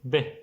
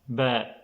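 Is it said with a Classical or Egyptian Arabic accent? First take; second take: Egyptian; Classical. First: The vowel is a short e sound. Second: The vowel is an open a sound.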